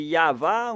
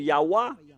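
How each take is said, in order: First: The middle consonant is a v sound. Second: The middle consonant is a w sound. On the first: The speaker calls it right. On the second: The speaker calls it wrong.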